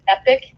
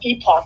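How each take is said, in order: First: The second syllable sounds like 'pick'. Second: The second syllable sounds like 'pock'. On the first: The speaker calls it wrong. "I used to pronounce it Epic because I didn't know how to pronounce it" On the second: The speaker calls it right. "I heard one of their journalists, and he's like, Epoch"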